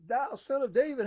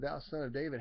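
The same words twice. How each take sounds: First: It is yelled as loudly as possible. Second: It is called out at ordinary loudness.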